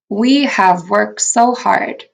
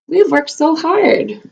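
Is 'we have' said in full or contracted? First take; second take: full; contracted. First: Both words 'we have' are said in full. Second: 'We have' is shortened into one syllable, 'we've'.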